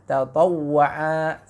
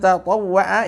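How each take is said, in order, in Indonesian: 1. Vokalnya dibaca panjang. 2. Vokalnya dibaca pendek.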